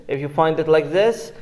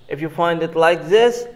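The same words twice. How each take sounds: Both takes have the same delivery.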